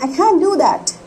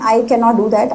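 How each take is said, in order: First: Cannot is contracted to a single syllable. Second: Cannot is said in full as two syllables. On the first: "I will say" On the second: "अगर मुझे बोलना है"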